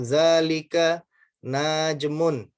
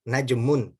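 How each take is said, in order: First: Najmun with a vowel slipped in, read slowly; wrong reading. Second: Najmun with a short na, said crisply; correct short na. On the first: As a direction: mispronounce najmun as na-ja-mun, drawn out. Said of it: "dia bacanya begini". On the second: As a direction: say Najmun with a clipped short first vowel. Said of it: "nanya pendek". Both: Shown as a demonstration.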